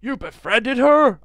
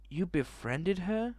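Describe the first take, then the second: First: Loud, slow, high-pitched character voice. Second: Soft, slow, rising question. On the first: Redoing the character's line in a new voice, loud and high. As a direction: exclaim it in a raised, drawn-out put-on voice. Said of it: "I'll be having that voice". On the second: Reading the character's line to the viewers, soft and questioning. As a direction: ask it quietly, drawing it out. Reads game dialogue, first take. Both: Acted.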